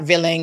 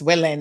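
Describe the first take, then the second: First: The word is said with an imitated nonstandard pronunciation. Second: The word is said with its standard pronunciation. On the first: The speaker calls it wrong. "it's not willing" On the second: The speaker calls it right. "it's willing"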